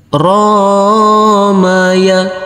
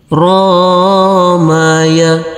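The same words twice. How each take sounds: First: Only the first syllable ro is lengthened. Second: The same.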